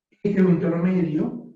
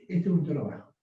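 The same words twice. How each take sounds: First: Fuller, louder mid voice, half a shout; middle tone. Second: Low, calm speaking voice. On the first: Coach demonstrating the middle tone, louder. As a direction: lift into a projected middle register. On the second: Coach demonstrating the low tone to the class, relaxed. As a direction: settle into your easy low register. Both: Shown as a demonstration.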